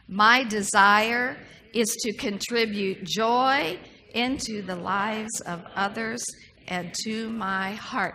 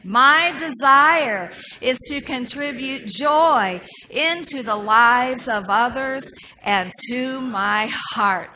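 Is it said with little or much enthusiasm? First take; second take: little; much. First: It is said with ordinary, plain energy. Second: It is said with more enthusiasm and energy.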